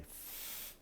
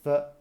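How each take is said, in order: First: The consonant is said alone, with no vowel. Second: The consonant is followed by a short uh vowel. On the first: The speaker calls it right. "make sure they say f" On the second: The speaker calls it wrong. "if the student says f, then just correct it"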